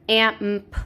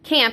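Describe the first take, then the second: First: The word is split into separate sounds. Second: The word is said smoothly as one unit. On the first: The speaker calls it right. "break down the words" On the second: The speaker calls it wrong. "instead of saying camp"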